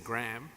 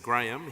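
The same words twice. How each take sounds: First: It is said with an American accent. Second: It is said with a British accent.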